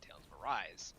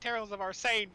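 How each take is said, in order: First: The last word sounds like 'arise'. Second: The last word sounds like 'arsane'. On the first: The speaker calls it right. "which I learned only at the Game Awards" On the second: The speaker calls it wrong. "I've been pronouncing mis- wrong"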